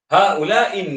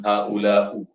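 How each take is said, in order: First: The word ends in an i vowel. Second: The word ends in a u vowel. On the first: The speaker calls it right. "tetap selama-lamanya dengan baris bawah" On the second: The speaker calls it wrong. "tukar baris ... tak boleh"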